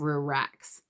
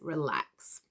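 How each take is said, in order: First: The L is pronounced like an R sound. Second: The L is a clear L with tongue forward. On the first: "I hear a lot of relax" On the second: "My tongue's coming right far forward at that point"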